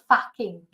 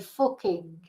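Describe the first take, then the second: First: It has a Southern 'ah' vowel. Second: It has a Manchester 'oo' vowel.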